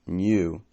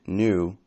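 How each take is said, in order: First: "new" said as "nyoo", with a y glide; "new" with the y sound before the oo; British "new". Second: "new" said as "noo", no y glide; "new" with a plain oo vowel, American style. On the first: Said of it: "British English has new". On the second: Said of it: "unlike American new". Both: Shown as a demonstration.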